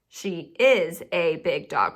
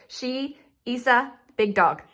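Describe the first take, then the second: First: Slow, each word separate in "She is a big dog"; word-by-word teacher reading of "She is a big dog"; spaced-out words. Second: "is a" smushed into one word; "she", then "is a" blurred together, then "big dog"; words run together. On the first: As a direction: leave space between "is" and "a", stressing "is". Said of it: "We definitely gotta put a space in between those words". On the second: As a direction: say "is a" as a single word, no space between. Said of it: "Otherwise, it looks like". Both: Shown as a demonstration.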